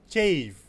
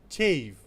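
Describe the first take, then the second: The two takes are said the same way.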